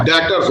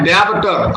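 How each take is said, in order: First: डेटर्स with the b silent; correct pronunciation. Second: डेब्टर with a clear b sound; wrong pronunciation. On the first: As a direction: say डेटर्स cleanly, no b. (सही उच्चारण, बी silent) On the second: (गलत उच्चारण, बी बोलकर) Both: Shown as a demonstration. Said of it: "correct pronunciation होती है डेटर्स".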